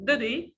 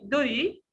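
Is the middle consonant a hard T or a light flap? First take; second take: light flap; light flap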